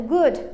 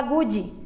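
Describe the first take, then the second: First: "good" ending on a dry D; dry final D. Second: "good" said as "goo-djee"; added final I. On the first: Teacher gives the example, "good" with dry D. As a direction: say "good" with no vowel after the D. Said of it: "tem que fazer um som seco". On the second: Teacher imitates learners' habit, "good" as "goo-djee". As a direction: say "good" with a Brazilian I tacked on. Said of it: "A gente vai e coloca um I". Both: Shown as a demonstration.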